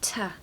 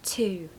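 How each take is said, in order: First: The vowel is reduced to a weak schwa. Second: The vowel is a full, long oo sound. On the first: The speaker calls it right. "it's actually a schwa. You're going to say t" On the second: The speaker calls it wrong. "not two"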